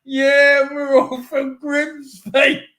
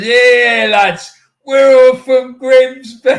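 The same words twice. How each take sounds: First: Slow, higher mock yell of a drunk fan; drunk fan impression. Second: Put-on loud, slow, higher drunken football fan shout; hammed-up drunk Grimsby fan yelling from a car; drunk fan impression. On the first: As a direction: call it out like a drunk fan with a cardboard fish. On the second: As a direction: bellow it like a drunk fan leaning out a car window. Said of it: "like this".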